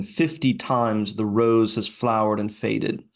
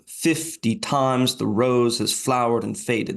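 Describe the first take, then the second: First: Slow, the stress falling on "Fifty", first syllable "FIF" hit hardest; trochaic reading. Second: Slow, the word "times" punched hardest, the line still falling on first syllables; trochaic reading. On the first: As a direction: read it slowly, leaning on the first syllable of each foot, "FIF-ty TIMES the ROSE". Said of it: "it reverses the stresses, putting the stresses on the first syllable". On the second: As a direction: read it slowly again, this time leaning on "times". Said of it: "putting the stresses on the first syllable". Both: Shown as a demonstration.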